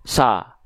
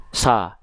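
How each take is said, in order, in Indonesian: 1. Vokalnya seperti A tipis. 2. Vokalnya seperti A tipis.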